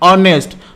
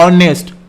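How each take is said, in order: First: The word begins directly with a vowel. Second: The word begins directly with a vowel.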